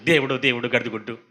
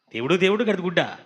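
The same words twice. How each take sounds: First: Mock casual oath దేవుడు, దేవుడు said lightly and low; careless swearing. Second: దేవుడు, దేవుడు echoed with a rising scornful tune; mocking question. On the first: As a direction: toss off దేవుడు, దేవుడు like a habit. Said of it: "ఎంతసేపు చూసాం". (దేవుడు, దేవుడు అని తేలికగా ఒట్టు) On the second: Shown as a demonstration. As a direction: throw the oath back as a question. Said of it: "ఏంటి". (దేవుడు, దేవుడు అని ఎగతాళిగా ప్రశ్న)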